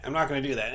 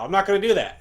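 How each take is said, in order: First: Said in the usual way. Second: Emphatic. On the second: Real, not acted. Repeats refusal emphatically.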